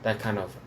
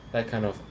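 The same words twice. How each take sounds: The two takes are said the same way.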